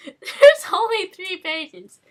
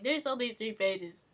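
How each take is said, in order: First: Loud, high, slow, laughing; laughing disbelief. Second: Said in the usual way. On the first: Real, not acted. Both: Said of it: "This is amazing".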